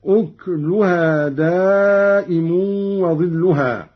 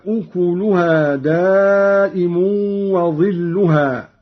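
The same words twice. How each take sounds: First: أكلها with vowelless kaf, ukluha; slow recitation, أكلها as uk-lu-ha; silent kaf reading. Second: أكلها with a u after the kaf, ukuluha; slow recitation, أكلها as u-ku-lu-ha; reference reading. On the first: Reciter showing Qalun's reading, kaf without vowel in أكلها. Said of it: "قرأ قالون بإسكان الكاف". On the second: Reciter giving the verse before the variant, voweled kaf in أكلها. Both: Shown as a demonstration.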